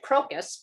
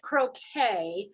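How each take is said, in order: First: The word ends in a 'kus' sound. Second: The word ends in a 'kee' sound. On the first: This follows the spelling of the word. "I would have pronounced it crocus because that's the way it's spelled" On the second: This is how others say the word. "I think they pronounce it croquet"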